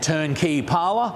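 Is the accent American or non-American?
non-American. It is said in a non-American accent.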